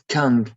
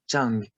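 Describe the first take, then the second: First: The word begins with a 'k' sound. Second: The word begins with a 'ch' sound. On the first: The speaker calls it wrong. "not Kang" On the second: The speaker calls it right.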